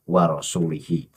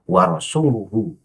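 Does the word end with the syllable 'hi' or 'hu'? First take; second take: hi; hu. First: The last two syllables have an 'i' vowel. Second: The last two syllables have a 'u' vowel. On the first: The speaker calls it wrong. "bukan warasulihi" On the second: The speaker calls it right. "ya maka warasuluhu"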